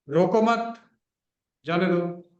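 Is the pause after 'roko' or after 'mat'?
after mat. The pause comes after 'mat'.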